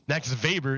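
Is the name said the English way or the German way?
German. The name is said with German pronunciation. The speaker calls it right. "Max Weber is German"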